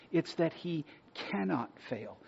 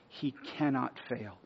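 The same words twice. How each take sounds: First: "cannot" pressed home, a touch higher; stress on cannot. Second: "cannot" leaned on, slowed and weighty; stress on cannot. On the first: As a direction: land firmly on "cannot". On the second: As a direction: hit "cannot" hard and slow. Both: Real, not acted. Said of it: "And I cannot stress that word enough".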